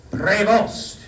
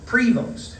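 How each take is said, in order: First: "Prevost" intoned with the weight on "vost", pre-VOST; "Prevost" chanted with "vost" stressed, as the cardinal said it; second-syllable stress. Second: "Prevost" said PRE-vost, weight on "Pre"; "Prevost" with "Pre" stressed, the way Americans say it; first-syllable stress. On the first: Retold or imitated. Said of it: "He put the emphasis on the second syllable, on Vost". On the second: Shown as a demonstration. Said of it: "I pronounced his surname with the stress ... on the first syllable".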